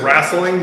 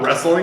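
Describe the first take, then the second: First: It is said with a rural Oklahoma pronunciation. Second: It is said with a standard general pronunciation. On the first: An older relative with Oklahoma roots says it this way. "she says wrestling" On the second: This is how most people say it. "not wrestling"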